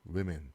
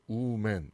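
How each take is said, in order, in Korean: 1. 두 번째 음절에는 'ih' 모음이 있어요. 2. 두 번째 음절은 'man'처럼 들려요. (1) "뒤에 있는 이가 이 발음으로 바뀌죠" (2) "woman 이런 발음이 아니라"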